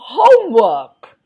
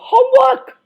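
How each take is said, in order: First: The voice falls and ends low. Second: The voice ends high, like an exclamation. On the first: It sounds like a plain statement. The speaker calls it wrong. "you can't do homework because that's a full stop" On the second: It sounds like an exclamation. The speaker calls it right. "You've got to do homework. So it's an exclaim. The exclaim has to end high"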